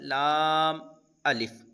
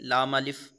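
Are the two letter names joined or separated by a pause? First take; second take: separated; joined. First: The two letter names are separated by pause. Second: The two letter names run together without pause. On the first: The speaker calls it right. "इस तरह से" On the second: The speaker calls it wrong. "इस तरह से नहीं पढ़ेंगे"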